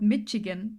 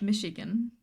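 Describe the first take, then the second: First: The middle consonant is a hard 'ch' sound. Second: The middle consonant is a soft 'sh' sound. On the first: The speaker calls it wrong. "it is not called Michigan ... I was pronouncing this Michigan with a ch forever" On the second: The speaker calls it right.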